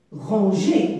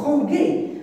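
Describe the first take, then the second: First: Said in the usual way. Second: "ranger" with a hard G as in gare; misread without E. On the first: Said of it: "Je dois ajouter E". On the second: Shown as a demonstration. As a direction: say "ranger" as ran-gué, hard G. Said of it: "ça se prononce quoi?".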